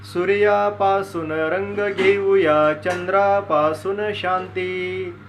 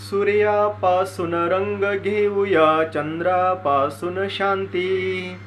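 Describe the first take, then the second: No difference in how they are said.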